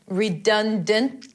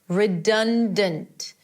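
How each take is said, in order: First: The final T is held, barely heard. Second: The final T is clearly released. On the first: "It could be a healthy" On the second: "Go ahead and release that T"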